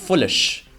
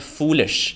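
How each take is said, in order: First: The first vowel is short. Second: The first vowel is long. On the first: The speaker calls it wrong. "ऊ को ओ कर देते हैं" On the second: The speaker calls it right. "जिसमें long vowel है ऊ"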